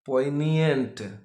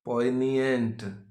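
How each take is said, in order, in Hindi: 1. इसे वैसे बोला जाता है जैसे मूल वक्ता बोलते हैं। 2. इसे वैसे बोला जाता है जैसे मूल वक्ता बोलते हैं।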